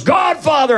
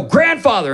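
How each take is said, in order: First: Higher mock demon shout; spirit voice. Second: Said in the usual way. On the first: Spirit correcting the pastor, higher mock shout. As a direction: bark it back as the spirit. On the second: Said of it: "So I go".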